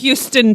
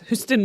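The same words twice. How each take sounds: First: It is pronounced the way the Texas city is. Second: It is pronounced the way the Renfrewshire town is. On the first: It names the American city. The speaker calls it wrong. "Not Houston, Texas" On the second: It names the Scottish town. The speaker calls it right. "Houston, Renfrewshire"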